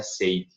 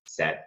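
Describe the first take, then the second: First: "said" mispronounced to rhyme with "fade"; wrong pronunciation. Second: "said" with a short open E, like "sed"; lower, short "said" rhyming with "bed"; correct pronunciation. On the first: Teacher shows learners what to avoid, mispronunciation demo. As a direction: say "said" like "sayed", long EI vowel. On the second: Teacher corrects the mistake, short-vowel pronunciation demo. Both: Shown as a demonstration. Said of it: "Não vai pronunciar said".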